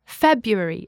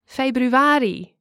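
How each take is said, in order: First: "February" with the stress on its first syllable; English first-syllable stress. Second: "Februari" slow, stressed on the second-to-last syllable; Dutch penultimate stress. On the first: Teacher showing English month stress, "February" stressed on the first syllable. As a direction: hit the opening syllable of "February", English style. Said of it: "stress on the first syllable".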